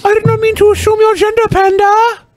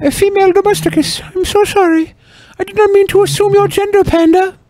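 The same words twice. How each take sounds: First: Higher faster mock apology; squeaky rushed fake sorry. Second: High mock apology; squeaky fake apology.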